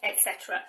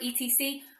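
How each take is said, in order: First: It is said as two full words. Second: It is spelled out as three letters. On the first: The speaker calls it right. "It's always et cetera" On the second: The speaker calls it wrong. "some people try and pronounce it E T C. We do not say that"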